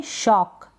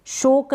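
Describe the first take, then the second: First: Said in the usual way. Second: शोक with a long o vowel; wrong pronunciation. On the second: Shown as a demonstration. Teacher warns during the practice reading, mispronounced शोक. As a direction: say shock as शोक. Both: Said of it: "शोक ना पढ़ें".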